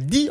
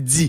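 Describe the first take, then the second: First: The d is plain, with no buzz after it. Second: The d is followed by a dz buzz. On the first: The speaker calls it wrong. "On dit pas" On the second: The speaker calls it right. "on dit"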